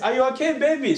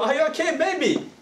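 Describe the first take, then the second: First: It sounds friendly, not angry. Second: It sounds angry.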